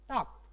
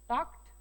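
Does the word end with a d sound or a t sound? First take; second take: t sound; t sound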